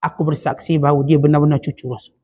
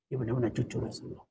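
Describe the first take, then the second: First: Said in the usual way. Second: Soft echo. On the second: Acted. Preacher softly echoing the man's lifelong testimony, hushed. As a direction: drop to a near hush on "Dia benar-benar cucu Rasulullah". Echoes testimony much softer.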